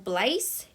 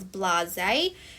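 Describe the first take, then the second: First: It is said like an ordinary English word. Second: It is said with a French-sounding ending. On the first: The speaker calls it wrong. "this word is not blaze" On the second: The speaker calls it right. "it is blase"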